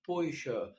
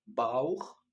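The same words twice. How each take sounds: First: بويشا as German Bäuche, with a light sh; teacher contrasting بويشا, light sh; German ich-sound. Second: باوخ as German Bauch, loud with a throaty kh; teacher contrasting باوخ, hard kh; German ach-sound. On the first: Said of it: "هقول بويشا". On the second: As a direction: say باوخ firmly with a rough kh. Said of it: "كنا بنقول باوخ". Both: Shown as a demonstration.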